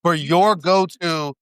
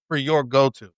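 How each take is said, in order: First: Slow emphasis. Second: Said in the usual way. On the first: Real, not acted.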